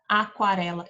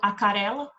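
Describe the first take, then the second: First: A w sound follows the k sound. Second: No w sound follows the k sound. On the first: The speaker calls it right. "Olha o som do U aqui" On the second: The speaker calls it wrong. "Eu não falo acarela"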